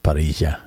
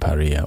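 First: The double L is sounded like a J. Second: The double L is not sounded like a J.

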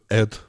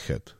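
First: The h is dropped, London style. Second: It starts with a clear h sound.

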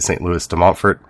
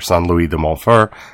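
First: The name is said the English way. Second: The name is said in a non-English way.

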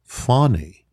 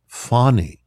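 First: The first vowel sounds like in 'father'. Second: The first vowel sounds like in 'father'.

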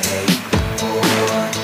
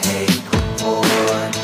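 Both takes have the same delivery.

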